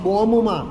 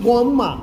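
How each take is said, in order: No difference in how they are said.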